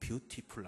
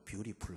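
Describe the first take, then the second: First: The middle t is said as a clear t. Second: The middle t is softened into a flap. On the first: The speaker calls it wrong. "뷰티풀 안 하고" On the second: The speaker calls it right. "티가 없어야 아름답기 때문에 ... 뷰티풀 한다"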